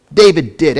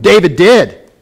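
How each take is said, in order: First: Said in the usual way. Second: "David did" punched out loudly; strong exclamation. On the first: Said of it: "you gotta say it strongly". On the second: Shown as a demonstration. Preacher prompting everybody to say "David did", strongly exclaimed. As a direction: hit "David did" hard, like an exclamation point. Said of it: "say it strongly with an exclamation point".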